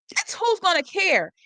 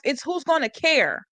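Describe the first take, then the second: First: Higher and slower, leaning on "who's"; "who's gonna care" said higher and slower with the weight on "who's"; emphatic repeat. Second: Said in the usual way. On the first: Shown as a demonstration. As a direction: hammer home "who's", slow and high.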